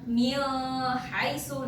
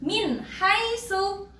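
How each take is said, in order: First: The n sound is blurred into the next sound. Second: The n sound is pronounced clearly. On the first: The speaker calls it wrong. "nggak boleh dibaca ... dengung atau samar-samar" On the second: The speaker calls it right. "Jadi bacanya jelas"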